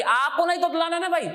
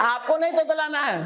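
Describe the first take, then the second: First: नहीं raised and pressed, आपको नहीं तोतलाना; firm warning with नहीं stressed. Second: नहीं lifted and firm in आपको नहीं तोतलाना है; scolding warning, नहीं stressed; stress on नहीं again. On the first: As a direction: lean hard on नहीं. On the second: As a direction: press नहीं through a laugh. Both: Shown as a demonstration. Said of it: "stress on नहीं".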